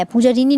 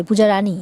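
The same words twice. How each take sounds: First: "Puja রিনী" with a short i sound: রিনী; wrong name. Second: "Puja রানী" with a clear open a: রানী; corrected name. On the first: ("পূজা রিনী" ভুল উচ্চারণে, রিনী) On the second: ("পূজা রানী" সঠিক উচ্চারণে, রানী) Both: Acted. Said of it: "পূজা রিনী নয়".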